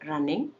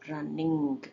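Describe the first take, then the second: First: The final g is held, not released. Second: The final g is fully released. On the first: "stop ಮಾಡಿದ್ದೀನಿ" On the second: "release ಮಾಡಿದ್ದೀನಿ"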